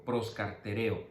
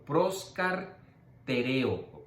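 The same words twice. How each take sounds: First: Proscartereo said as one quick smooth word; whole word. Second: Proscartereo drawn out into slow separate syllables. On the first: Teacher saying the Greek word whole after dictating it. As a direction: run proscartereo together in one breath. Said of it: "tiene que ser completa". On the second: Teacher dictating the Greek word for students to write, slowly. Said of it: "Lo estoy dividiendo para que lo puedan escribir". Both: Shown as a demonstration.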